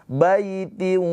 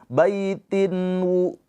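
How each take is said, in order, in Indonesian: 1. Bunyi n menyatu menjadi w sengau. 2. Bunyi n dibaca jelas sebelum w. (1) "tapi langsung ke waw dileburkan" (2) "Jangan baitin wu"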